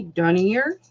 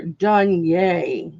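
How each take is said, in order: First: Dunier said as "DUNNY-er", questioning; English-style pronunciation. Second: Dunier said as "dun-YAY"; French-style pronunciation. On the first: Unsure of a customer's surname, Dunier as "dunny-er?". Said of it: "I don't know if it's French". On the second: Reading out a customer's surname, Dunier as "dun-yay". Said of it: "I think that's how you pronounce it". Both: Shown as a demonstration.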